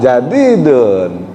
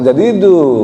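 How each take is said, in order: First: The word ends with a final n sound. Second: The word ends on a vowel, no n. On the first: The speaker calls it right. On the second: The speaker calls it wrong. "bukan jadidu. Dun ya, dun"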